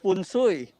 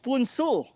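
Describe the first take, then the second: First: It begins with f and sounds like 'fun sui'. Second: It begins with p and sounds like 'poon-soo'. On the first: "In Tagalog, it's" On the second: "Korea, it's"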